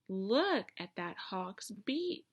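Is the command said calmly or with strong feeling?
strong feeling. It is said forcefully, with strong feeling.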